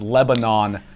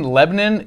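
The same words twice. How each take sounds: First: It is said the usual general way. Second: It is said the local Tennessee way. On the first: This is further from the original pronunciation. The speaker calls it wrong. "than Lebanon" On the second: This is closer to the original pronunciation. The speaker calls it right. "saying Lebanon is actually much closer to the original"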